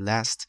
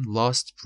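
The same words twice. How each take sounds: First: Last with a short American 'a' as in cat; American pronunciation. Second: Lost as British last, long open 'ah'; British pronunciation. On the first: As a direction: give last its American vowel. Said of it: "امریکن، lost بریتیش". (تلفظ امریکن last با «اَ») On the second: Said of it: "lost بریتیش". (تلفظ بریتیش lost با «آ») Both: Shown as a demonstration.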